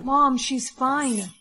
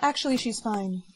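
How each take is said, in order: First: Slow, loud, drawn-out command. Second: Dazed echo. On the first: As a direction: say it slowly like a hypnotic order. Mind control command to mom. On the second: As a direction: repeat it as if under a spell. Mom repeats under mind control. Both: Acted.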